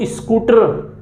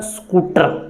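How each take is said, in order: First: "स्कूटर" with a short i before the S; added initial i. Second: "स्कूटर" starting straight on the S; Haryana pronunciation. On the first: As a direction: say "स्कूटर" as is-koo-tar. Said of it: "इसका उच्चारण आप क्या बोलते हो". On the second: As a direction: say "स्कूटर" as skoo-tar, no leading i. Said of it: "मेरे उच्चारण से निकलता है". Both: Shown as a demonstration.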